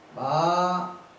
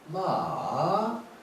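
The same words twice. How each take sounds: First: The syllable is said with a high level tone. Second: The syllable is said with a falling-rising tone. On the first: It means mother. "일성하면 마 이러면 엄마의 뜻이에요" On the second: It means a horse. "삼성으로 마 이러면은 이것은 타는 말이에요"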